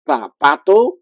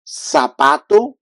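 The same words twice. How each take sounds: First: The z sounds like th in thanks. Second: The z sounds like a strong s. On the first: This is the way people from Spain say it. "like T H in English, like thanks" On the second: This is the Latin American way of saying it. "like a strong S in English"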